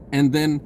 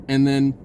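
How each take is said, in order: Both takes have the same delivery.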